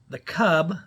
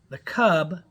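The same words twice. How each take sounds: No difference in how they are said.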